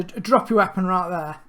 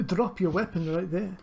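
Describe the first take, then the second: First: Said in the usual way. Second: Lightly put-on French accent; guard's order in a shaky attempt at a French accent. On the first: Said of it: "Sorry, uh, d". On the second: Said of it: "What's wrong with my French accent?".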